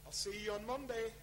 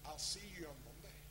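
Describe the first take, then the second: First: It sounds warm and encouraging. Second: It sounds cold and threatening. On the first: The listener is welcome and appreciated. "A word that excites you" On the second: The listener is in trouble. "a word that causes you not to sleep for the next 3 days"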